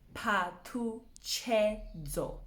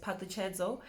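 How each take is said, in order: First: The name is split into separate syllables. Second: The name is said smoothly as one word. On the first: "we're gonna break it down" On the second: "how you would normally say it"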